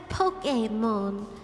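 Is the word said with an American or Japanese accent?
Japanese. It is said with a Japanese pronunciation. "I know it's Pokemon"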